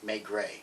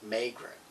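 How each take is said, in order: First: Maigret said the French way, MAY-gray; corrected pronunciation. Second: Maigret said as MAY-gruh, final vowel clipped short; mispronounced name. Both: Real, not acted. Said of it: "excuse me".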